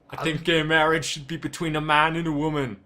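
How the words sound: It is read in a put-on celebrity impression voice.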